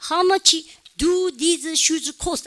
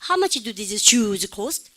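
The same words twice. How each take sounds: First: Every word gets equal, full stress. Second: Only how much and shoes cost stand out.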